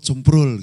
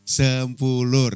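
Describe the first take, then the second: First: The name is said fast and clipped. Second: The name is said slowly and fully.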